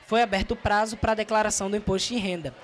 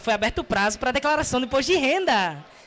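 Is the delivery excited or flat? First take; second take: flat; excited. First: It is said flatly, with no emotion. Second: It is said with excited, lively emotion. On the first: It is an objective piece of news. The speaker calls it right. "neutra e linear ... não expressa emoção" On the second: The speaker is happy about the news. The speaker calls it wrong. "Ninguém fala assim"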